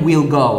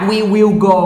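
First: We and will merge into one short syllable. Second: We and will are said as two full words. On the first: "ก็เป็น" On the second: "จาก"

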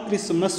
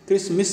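First: The last syllable has an 'a' vowel, 'mus'. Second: The last syllable has an 'i' vowel, 'mis'. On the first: The speaker calls it right. "क्रिसमस होता है" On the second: The speaker calls it wrong. "क्रिसमिस नहीं होता"

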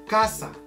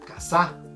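First: The stress is on the first syllable. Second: The stress is on the second syllable. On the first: "el acento es en la K" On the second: "Si nosotros cambiáramos el acento al sa, diríamos casa"

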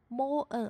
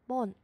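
First: The vowel and the n are said apart slowly. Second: The vowel and the n are blended quickly.

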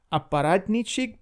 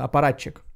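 First: The word ends with an -ici sound. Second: The word ends with a -chik sound. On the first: The speaker calls it wrong. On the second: The speaker calls it right.

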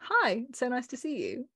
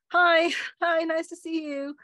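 First: The greeting sounds genuinely warm. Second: The greeting sounds forced, not warm.

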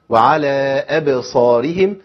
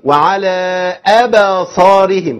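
First: The b is released with a quick bounce. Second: A short vowel is added after the b. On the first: The speaker calls it right. "اي بس كده" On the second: The speaker calls it wrong. "كده انت بتفتح، كده انت بتعمل حركه"

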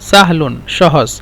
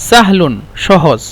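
The two takes are said the same way.

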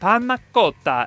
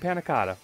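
First: It is said with an exaggerated Italian accent. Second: It is said with a plain American accent. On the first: The speaker calls it right. "as Giada would want us to say" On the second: The speaker calls it wrong. "We're not making panna cotta"

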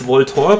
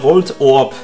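First: The word is said smoothly without a break. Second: The word has a short pause after Volt.

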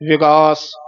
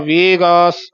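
First: The first vowel is a short i sound. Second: The first vowel is an e sound. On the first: The speaker calls it right. "ਸਿਹਾਰੀ ਬੋਲਣੀ ਹੈ ਵਿਗਾਸ" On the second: The speaker calls it wrong. "ਸਿਹਾਰੀ ਛੱਡ ਕੇ ... ਵੇਗਾਸ"

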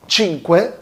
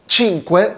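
No difference in how they are said.

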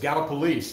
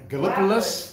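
First: The name is pronounced the way locals say it. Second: The name is pronounced the way outsiders guess it. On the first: This is how people from the area say it. The speaker calls it right. "And no, it's Gallipolis" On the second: This is a guess by people from elsewhere. The speaker calls it wrong. "Is it Gallipolis?"

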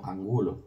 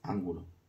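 First: The stress is on the second syllable. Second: The stress is on the first syllable. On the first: The speaker calls it right. "aquí pone Angulo por el tema de la palabra llana" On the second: The speaker calls it wrong.

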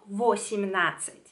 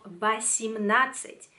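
First: The first vowel sounds like 'o'. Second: The first vowel sounds like 'a'. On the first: The speaker calls it wrong. "No vosimnadzeć" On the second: The speaker calls it right. "La O la pronunció como A porque no le cae el acento"

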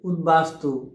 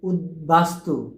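First: The b sound after d is silent. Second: The b sound after d is pronounced. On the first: The speaker calls it wrong. "আমরা ভুল করে ফেলি" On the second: The speaker calls it right. "এটি শুদ্ধ উচ্চারণ কী হবে?"

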